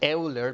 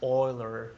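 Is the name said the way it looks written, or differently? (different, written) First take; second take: written; different. First: The name is said the way it is written. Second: The name is said differently from its spelling. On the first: The speaker calls it wrong. "it's spelled like Euler" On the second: The speaker calls it right. "but it's actually pronounced Euler"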